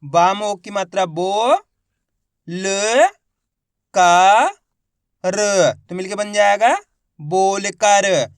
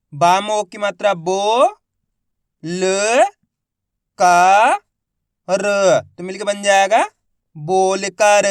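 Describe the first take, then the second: First: बोलकर built up slowly from बो, ल, का, र, the final word very slow; syllable by syllable. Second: बोलकर built up slowly from बो, ल, का, र, louder on each syllable. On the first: Teacher repeating the demo of बोलकर for the class, slow. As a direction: spell out बोलकर syllable by syllable, stretching the joined word. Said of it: "एक बार फिर से देखिए". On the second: Teacher showing the class how to read बोलकर, slow and syllabic. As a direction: sound out बोलकर one syllable at a time, then join it. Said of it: "मेरे तरीके को देखना है". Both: Shown as a demonstration.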